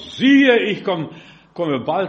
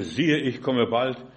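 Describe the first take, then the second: First: It is read very loudly. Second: It is read at normal volume.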